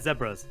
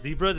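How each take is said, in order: First: It is said with a British pronunciation. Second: It is said with an American pronunciation. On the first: "they do call them zebras" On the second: "instead of"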